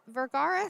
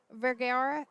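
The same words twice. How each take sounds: First: "Vergara" with an open "ah" in the middle; corrected surname. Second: "Vergara" with a flatter middle vowel, like "air"; mispronounced surname. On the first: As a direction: say "Vergara" as "ver-GAR-a", stressed in the middle. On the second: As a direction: say "Vergara" wrongly, as "ver-GAIR-a". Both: Real, not acted.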